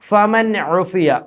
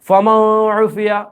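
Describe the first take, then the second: First: The n sound is pronounced clearly. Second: The n sound is dropped and merged. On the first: The speaker calls it right. "ഫമൻ ഉഫിയ എന്നാണ് ഓതേണ്ടുന്നത്" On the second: The speaker calls it wrong. "ഫമ ഉഫിയ എന്നൊന്നും ഓതാൻ പാടില്ല. അത് മണിച്ചു കൂട്ടിച്ചേർക്കലായി പോകും"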